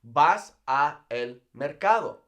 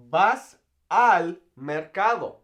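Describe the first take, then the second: First: "a el" as two separate words; unjoined "a", then "el", each spoken distinctly; a el kept apart. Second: "al" run together as a single syllable; teacher's careful "al", no break inside it; al as one word. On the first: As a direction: split "a el" with a small gap between "a" and "el". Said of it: "So you do not say". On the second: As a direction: say "al" as one joined word, slow and clear. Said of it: "it's simply easier to say al". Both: Shown as a demonstration.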